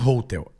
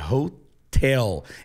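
First: The stress is on the first syllable. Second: The stress is on the second syllable. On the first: The speaker calls it wrong. "Não é hotel" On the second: The speaker calls it right. "É na segunda sílaba"

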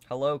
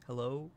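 First: It is said loudly. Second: It is said softly.

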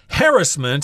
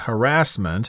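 First: The word is said in a non-American way. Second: The word is said the American way. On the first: It is a variant heard outside America. "I've heard it read that way too" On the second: It is the usual form in America. "in America we say harassment"

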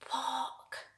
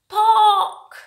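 First: The word is said quietly. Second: The word is said loudly. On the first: The picture is small. "When the picture is really small, we have to say it quietly" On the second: The picture is big. "And the picture is big, so we have to say it louder"

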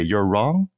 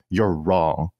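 First: The voice rises at the end. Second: The voice falls at the end. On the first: It sounds tentative, like a question. "And she doesn't say" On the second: It is a firm statement. "speak a lot more declaratively"

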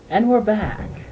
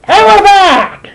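First: It is said calmly without shouting. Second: It is shouted loudly and scarily.

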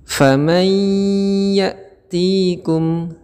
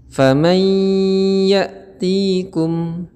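No difference in how they are said.

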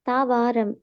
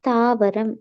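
First: The second syllable has a long vowel. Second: The second syllable has a short vowel. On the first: The speaker calls it wrong. "அதுல வாவண்ணா போட்டுக்குதுன்னு. தாவாரம் அல்ல" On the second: The speaker calls it right.

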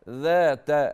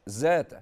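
First: The word begins with a soft th sound. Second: The word begins with a z sound. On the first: The speaker calls it right. "ذا ذا حرف الذال" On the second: The speaker calls it wrong. "ذات قلبت الذال زايا"

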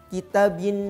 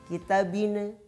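First: The word ends cleanly on the n sound. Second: A short bouncing vowel follows the final n. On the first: The speaker calls it right. "Yang tepat adalah" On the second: The speaker calls it wrong. "ada pantulannya"

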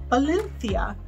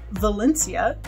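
First: It begins with b and has a th sound. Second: It begins with v and has an s sound. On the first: "the V's are pronounced as B's" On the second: "Instead of Valencia"

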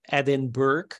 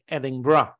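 First: It is said the way a Dutch reader would guess. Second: It is said the way locals pronounce it. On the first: The speaker calls it wrong. "to me, especially as being Dutch, I thought it was Edinburgh" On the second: The speaker calls it right. "apparently you pronounce it like Edinburgh"

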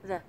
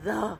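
First: The word is said short and quiet. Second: The word is drawn out long and full.

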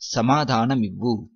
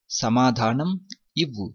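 First: The two words are blended into one. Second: The two words are said separately and fully. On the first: This is how it is said in everyday speech. "while speaking we mix these words" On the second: This is the full form of the phrase. "Actually it is samadhanam ivvu"

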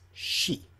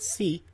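First: The syllable begins with an sh sound. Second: The syllable begins with a plain s sound. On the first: The speaker calls it right. "it's shi" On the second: The speaker calls it wrong. "It's not si"

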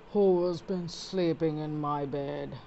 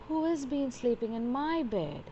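First: It is said in a deep, gruff voice. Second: It is said in a medium-pitched voice.

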